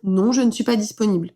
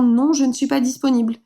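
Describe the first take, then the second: First: It sounds firm and confident. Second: It sounds unsure and hesitant.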